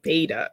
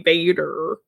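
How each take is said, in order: First: The final R sound is dropped. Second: The final R sound is clearly pronounced. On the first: This is how the other person says it. "you're the only person who says Vader, like Vader" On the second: This is how the speaker's group says it. "We say Vader"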